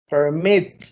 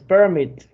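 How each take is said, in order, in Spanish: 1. El acento está en la última sílaba. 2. El acento está en la primera sílaba. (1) "está al final" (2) "no es permit, porque permit es un sustantivo"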